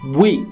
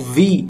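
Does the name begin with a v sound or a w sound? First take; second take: w sound; v sound. First: It begins with a w-like glide. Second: It begins with a v sound. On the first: "na pronúncia coreana como Wi. ... É um som que a gente não tem no português" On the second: "Também conhecido como Vi"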